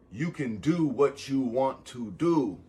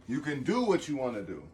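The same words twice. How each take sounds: First: Slow and deliberate, landing hard on the last do; slow emphatic. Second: Said in the usual way. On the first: Shown as a demonstration. Telling viewers slowly so they really hear it. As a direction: spell it out slowly so it sinks in.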